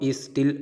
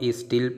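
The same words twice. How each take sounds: Both takes have the same delivery.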